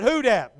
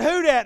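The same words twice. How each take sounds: First: Casual Saints fan call; easygoing New Orleans fan greeting. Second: Higher, louder Saints fan shout; hearty fan cheer across the street. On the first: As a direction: toss out the Saints cheer. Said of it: "in Saints fashion". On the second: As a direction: belt out the Saints call. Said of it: "But I said". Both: Retold or imitated.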